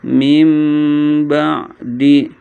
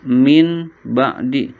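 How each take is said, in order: First: An m sound is heard before the b. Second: An n sound is heard before the b. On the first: The speaker calls it right. "jadi yang terdengar adalah suara mim" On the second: The speaker calls it wrong. "nggak boleh dibaca"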